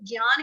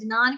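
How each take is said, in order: First: It starts with a 'g' sound. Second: It starts with a 'j' sound. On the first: "हम लोग ज्ञान कहते हैं तो हम लोग आधा ग लगाएंगे" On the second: "अगर ज्ञान कहते हैं तो आधा ज लगा दो"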